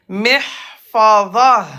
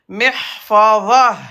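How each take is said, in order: No difference in how they are said.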